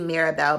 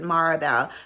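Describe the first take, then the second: First: The name begins with the sound 'Mira'. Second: The name begins with the sound 'Mari'. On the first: The speaker calls it right. "but it's actually Mirabelle" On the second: The speaker calls it wrong. "I always pronounce it Maribel"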